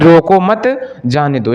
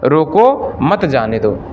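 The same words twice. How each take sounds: First: There is a pause after mat. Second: There is a pause after roko.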